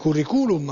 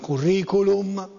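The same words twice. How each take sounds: First: The stress falls on a u syllable. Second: The stress falls on the i syllable. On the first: "se fosse sulla U sarebbe curriculum" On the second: "ma curriculum"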